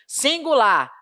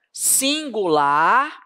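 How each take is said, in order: First: Said in the usual way. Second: "Singular" drawn out slowly with a rising end; slow stressed word. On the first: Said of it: "Então, guarda isso". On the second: Shown as a demonstration. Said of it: "Quando for singular". ("Singular" dito bem devagar, subindo no fim)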